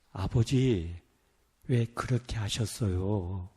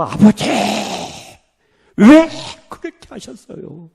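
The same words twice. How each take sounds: First: Low, soft, slow reproach to a father; hushed first plea. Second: Anguished cry bursting out, then dropping away; imitated wailing. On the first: Retold or imitated. Missionary addressing his absent father, hushed and low. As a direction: start almost under the breath, pitched low. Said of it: "점점 올라가더니 나중에는". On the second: Missionary breaking down before his absent father, imitated wail. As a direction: wail the WHY high and loud, then sink. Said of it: "통곡을 하면서".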